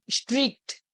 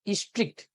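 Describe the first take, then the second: First: स्ट्रिक्ट with the s, t and r run tight together; careful demo word. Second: स्ट्रिक्ट repeated quietly, a short i before the cluster; softer repeat. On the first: Teacher showing students the cluster in स्ट्रिक्ट. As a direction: clip स्ट्रिक्ट as one consonant cluster. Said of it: "यहाँ पे कहीं न कहीं स्ट्रिक्ट आएगा". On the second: Teacher repeating स्ट्रिक्ट for students, quieter. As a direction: say स्ट्रिक्ट again, softly and falling. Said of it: "अगर हम इसको read करेंगे तो ये हो जाएगा स्ट्रिक्ट". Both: Shown as a demonstration.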